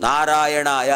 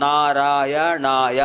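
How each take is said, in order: First: Said in the usual way. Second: "నారాయణాయ" drawn out very slowly, each syllable separate. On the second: Shown as a demonstration. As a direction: count out the five syllables of "నారాయణాయ". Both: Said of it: "పంచాక్షరాలు".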